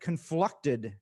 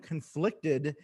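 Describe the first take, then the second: First: The word is pronounced with an altered middle vowel. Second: The word is pronounced in the usual standard way. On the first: This imitates someone else's quirky pronunciation. The speaker calls it wrong. "Tayshia said conflucted" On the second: This is how the word is normally said. The speaker calls it right. "Instead of saying conflicted"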